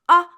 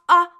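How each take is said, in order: First: The sound is said loudly. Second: The same.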